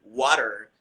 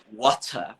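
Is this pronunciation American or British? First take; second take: American; British. First: It has a flapped t and an r ending. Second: It has a crisp t and no r ending.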